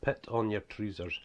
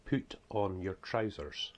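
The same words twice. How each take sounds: First: Slow, broad northeast Scots, "trousers" as "treezers"; broad Scottish dialect. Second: Said in the usual way. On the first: Shown as a demonstration. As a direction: spell out the Scottish dialect slowly. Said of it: "that's the way we speak though". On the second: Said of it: "See if you can get that".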